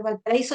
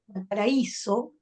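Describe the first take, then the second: First: Said in the usual way. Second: "Valparaíso" slowed, the í held and stressed. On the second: Shown as a demonstration. Teacher showing a hiatus, "Valparaíso" with stressed, drawn-out í. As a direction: lean on the í in "Valparaíso", apart from the a. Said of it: "y acentuamos la vocal".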